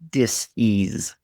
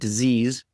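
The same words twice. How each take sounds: First: There is a slight pause between dis and ease. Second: The two parts run together without a pause. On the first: The word means a lack of ease. "you emphasize the two parts of the word" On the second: The word means an illness. "all run together with no s- slight pause in between"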